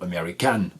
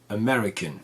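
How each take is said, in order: First: The stress is on the first syllable. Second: The stress is on the second syllable. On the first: The speaker calls it wrong. "vous avez accentué en fait la mauvaise syllabe" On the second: The speaker calls it right. "l'accentuation sur la deuxième syllabe"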